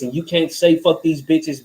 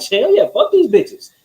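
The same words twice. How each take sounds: First: Said in the usual way. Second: High, hyped-up hell yeah; excited cheer. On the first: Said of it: "Oh, you're a man, you're supposed to be like this". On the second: Retold or imitated. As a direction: cheer it on like she's right with you. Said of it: "it's like".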